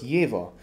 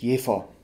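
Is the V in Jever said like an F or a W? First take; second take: W; F. First: The V is voiced, sounding like a W. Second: The V is voiceless, sounding like an F. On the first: This is the name as it is said across Germany. "mit einem weichen V, also mit einem W" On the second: This is the original local pronunciation of the town. "was eigentlich korrekt wäre"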